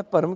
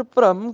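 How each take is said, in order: First: ਭਰਮ as "par-am"; full first vowel. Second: ਭ੍ਰਮ as "pram" in one syllable; half r cluster. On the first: Teacher asking why not this reading, ਭਰਮ as "par-am". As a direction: put a clear a before the r of ਭਰਮ. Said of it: "ਭਰਮ ਕਿਉਂ ਨਹੀਂ ਬੋਲਣਾ". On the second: Teacher asking why it is read so, ਭ੍ਰਮ as "pram". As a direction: join the r straight onto the first sound of ਭ੍ਰਮ. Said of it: "ਭ੍ਰਮ ਕਿਉਂ ਬੋਲਣਾ ਹੈ". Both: Shown as a demonstration.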